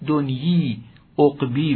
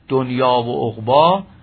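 First: Both words end in an 'ee' vowel. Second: Both words end in an 'ah' vowel. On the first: This is how the old poets pronounced it. The speaker calls it right. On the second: This is the modern pronunciation. The speaker calls it wrong.

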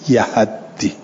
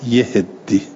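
First: Both the first and second syllables have an a vowel. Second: Both the first and second syllables have an i vowel. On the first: "به فتح یا اوها و تشدید دال" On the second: "به کسر الیاء و الهاء و تشدید"

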